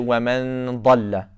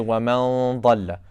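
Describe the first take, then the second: First: The nasal sound before the emphatic letter is light. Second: The nasal sound before the emphatic letter is heavy. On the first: The speaker calls it wrong. "they don't say" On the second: The speaker calls it right. "there is a correct way to make uh, ikhfa on, on when there's a heavy letter"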